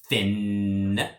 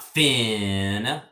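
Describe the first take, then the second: First: The vowel is quick and short. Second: The vowel is held long. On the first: The speaker calls it right. "It's real quick with the I" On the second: The speaker calls it wrong. "And it's not fin, it's not that"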